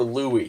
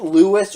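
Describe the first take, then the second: First: "Louis" said LOO-ee; Louis without S. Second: "Louis" said LOO-iss. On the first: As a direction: leave the s silent in "Louis", LOO-ee. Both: Shown as a demonstration. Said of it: "Is it Louis or Louis?".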